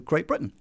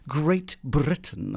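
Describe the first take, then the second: First: The T in Britain is a glottal stop. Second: The T in Britain is clearly pronounced. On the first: "I'd go Great Britain. And you can hardly hear the T at all there" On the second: "I wouldn't say that"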